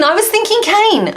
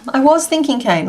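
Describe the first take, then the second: First: Thinking lifted high and falling away; stress on thinking. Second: Was leaned on, falling tune; stress on was. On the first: Crafter agreeing with a chat suggestion, thinking stressed high. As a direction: pitch the word thinking way up, then drop. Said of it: "Um, I was thinking cane". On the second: Crafter repeating her idea, stress on was. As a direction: lean on the word was, knowingly. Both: Shown as a demonstration.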